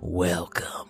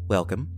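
First: It is said in an evil villain voice. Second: It is said in a stern parent voice.

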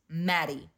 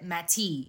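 First: The middle consonant sounds like a soft D. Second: The middle consonant sounds like a crisp T. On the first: The speaker calls it right. "it's pronounced like it has D's" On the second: The speaker calls it wrong. "This bitch said Matty"

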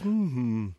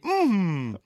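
First: It is said in a flat, subdued tone. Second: It is said in a bright, excited tone.

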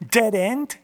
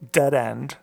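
First: It is said in a put-on British accent. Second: It is said in a plain, unaffected accent.

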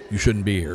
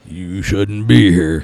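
First: It is said gently, like an older lady. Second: It is said in a scary, menacing way.

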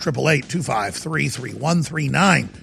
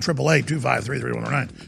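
First: The number is said slowly. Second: The number is said fast.

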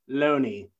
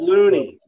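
First: The vowel sounds like 'oh'. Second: The vowel sounds like 'oo'. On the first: The speaker calls it right. "they made sure I pronounced it Loney" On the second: The speaker calls it wrong. "not Loony"

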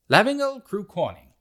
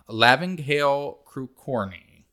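First: It is said in a British accent. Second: It is said in the speaker's normal accent.

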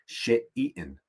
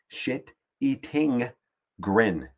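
First: It is said fast, running together. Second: It is said slowly and clearly.

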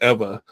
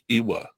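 First: The middle consonant is a V sound. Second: The middle consonant is a W sound. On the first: The speaker calls it right. "it turns into a V sound. So if it's, you know, so it's Ewa" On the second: The speaker calls it wrong. "a lot of people are like Ewa, right? Because there's a W in there"

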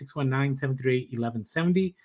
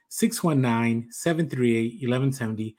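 First: The number is said fast. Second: The number is said slowly.

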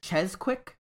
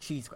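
First: The first syllable sounds like 'chez'. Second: The first syllable sounds like 'cheese'. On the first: "Is it Chez Quick" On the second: "I think it's Cheese Quick"

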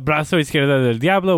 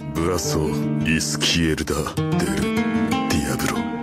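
First: It is said without a Japanese accent. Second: It is said with a Japanese accent.

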